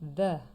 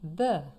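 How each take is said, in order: No difference in how they are said.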